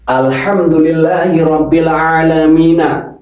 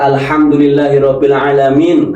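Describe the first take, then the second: First: The last word ends with a final vowel. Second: The last word ends on a consonant. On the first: This is the full form without stopping. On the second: The reader stops at this point.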